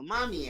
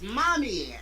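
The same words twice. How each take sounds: First: High, happy cry of Mommy; the twins calling out to their mother; elated yell. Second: High, loud, overjoyed cry of Mommy; squealing child running to her mother; elated yell. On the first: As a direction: cry Mommy like an overjoyed kid. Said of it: "they elatedly yell". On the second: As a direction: shout Mommy like a thrilled child. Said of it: "she elatedly yells". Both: Acted.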